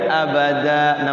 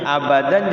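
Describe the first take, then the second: First: The word ends with a long a vowel. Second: The word ends with an n sound. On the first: The word is read at a stop. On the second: The word runs on without a stop.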